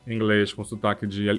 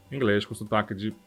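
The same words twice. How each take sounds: The two takes are said the same way.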